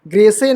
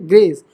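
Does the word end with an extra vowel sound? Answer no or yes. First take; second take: yes; no. First: It ends with an extra vowel sound. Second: It ends on the final s sound. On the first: The speaker calls it wrong. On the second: The speaker calls it right.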